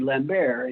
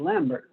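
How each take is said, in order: First: The name is given a French pronunciation. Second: The name is given an English pronunciation. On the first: The man is treated as French. "if he were French, then it would be Lambert" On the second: The man is treated as not French. "if he weren't French, it would be Lambert"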